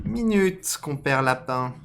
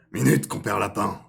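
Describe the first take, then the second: First: High, loud fox call; reworked fox voice. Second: Loud character call, only slightly raised; lightly voiced fox calling out loudly; first-try fox voice. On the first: Acted. Fox hailing Compère Lapin, high loud character voice. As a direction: stretch it out in a raised character voice. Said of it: "c'est un renard". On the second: Fox hailing Compère Lapin, loud rough-draft voice. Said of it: "Ah non, non, ah, c'est un renard".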